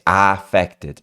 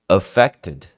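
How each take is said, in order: First: The first vowel is said very open. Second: The first vowel is said less open. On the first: The speaker calls it wrong. "O a não é muito aberto assim" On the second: The speaker calls it right. "Não"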